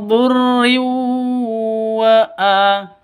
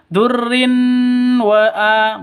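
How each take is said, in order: First: The n sound merges into the following w. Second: The n sound is said clearly before the w. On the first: The speaker calls it right. "Yang betul min durriu wa'a" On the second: The speaker calls it wrong. "bukan durrin wa'a, bukan"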